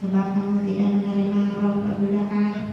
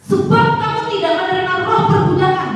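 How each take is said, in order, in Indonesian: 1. Dibaca lembut, kurang bertenaga. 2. Dibaca keras, bertenaga. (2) "lebih keras, gagah ... Nah gitu"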